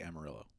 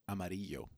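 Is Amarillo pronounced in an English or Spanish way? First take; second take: English; Spanish. First: The name is pronounced the English way. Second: The name is pronounced the Spanish way. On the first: This is how local people actually say it. "People in Texas say Amarillo" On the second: This is the original meaning, the word for yellow. "That's yellow"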